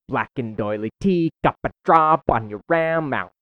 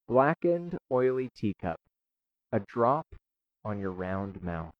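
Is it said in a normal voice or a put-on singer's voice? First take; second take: put-on; normal. First: It imitates the singer's percussive, affected delivery. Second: It is said in a plain, normal voice.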